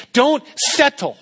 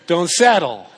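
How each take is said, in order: First: "Don't settle" jumped up high, stretched and sung out; a playful high squeal on "Don't settle"; goofy high-pitched preacher voice; odd high "Don't settle". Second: Said in the usual way. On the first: Real, not acted. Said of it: "I don't know why I'm saying it like that". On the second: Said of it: "I don't know why I'm talking like that".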